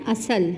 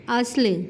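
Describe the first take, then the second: First: اصل with an added vowel, a-sal; common wrong way. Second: اصل with the first letter open and the rest silent; teacher reading اصل correctly before the common error; correct pronunciation. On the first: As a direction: say اصل the mistaken everyday way. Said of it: "تو یہ اصل نہیں ہے". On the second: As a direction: say اصل as one closed syllable, as-l. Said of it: "غلط العام الفاظ میں". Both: Shown as a demonstration.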